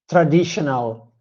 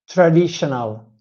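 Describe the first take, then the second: First: The stress falls where an Italian speaker puts it. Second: The same.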